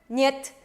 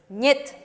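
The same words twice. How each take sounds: The two takes are said the same way.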